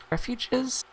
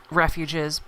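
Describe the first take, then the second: First: "refuges" lifted high as a question. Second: Said in the usual way. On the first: Real, not acted. Caster unsure it is the right term, questioning "refuges". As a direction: say "refuges" unsure, much higher in pitch. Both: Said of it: "Is that the right term there?".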